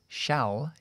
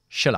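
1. La vocal es una a plena y clara. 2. La vocal se reduce a una schwa débil. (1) "se lo digo despacio, es shall" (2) "yo lo voy a debilitar porque es un verbo auxiliar. Le voy a dejar en schwa"

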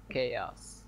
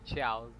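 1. Произносится с английским произношением. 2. Произносится как русифицированное 'chaus'. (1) "обучаем" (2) "Ты как школьник, блять, который английского не знает"

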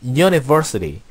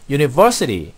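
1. 강세가 있는 음절은 두 개입니다. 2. 강세가 있는 음절은 하나뿐입니다. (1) "사실은 1강세, 2강세가 두 군데 있습니다" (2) "제 1강세만 우리가 발음을 신경을 썼던 것 같아요"

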